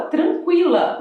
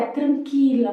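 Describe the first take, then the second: First: Tranquila with the U heard, trankwila; Portuguese pronunciation. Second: Tranquila without the U, trankila; Spanish pronunciation. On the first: Teacher shows the Portuguese trankwila with U. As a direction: sound the U in tranquila. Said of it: "mas em espanhol é tranquila". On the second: Teacher shows Spanish trankila, silent U. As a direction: drop the U in tranquila. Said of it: "O U não se pronuncia". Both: Shown as a demonstration.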